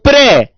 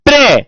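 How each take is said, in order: No difference in how they are said.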